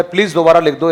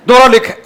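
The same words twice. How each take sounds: First: Said in the usual way. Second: Loud, high, curt "दोबारा लिख"; bossy loud "दोबारा लिख"; rude command. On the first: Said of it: "एक बोलना लेकिन ऐसे ही". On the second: Shown as a demonstration. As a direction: snap "दोबारा लिख" like an order. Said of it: "ऐसे मत बोलना".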